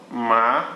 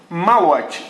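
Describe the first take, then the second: First: "malote" broken into ma, lo, te with long pauses; syllable by syllable. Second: Said in the usual way. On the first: Shown as a demonstration. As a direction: dictate "malote" slowly, one syllable at a time. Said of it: "de sílaba em sílaba". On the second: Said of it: "deixa eu escrever".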